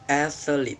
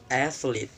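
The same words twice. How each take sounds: Both takes have the same delivery.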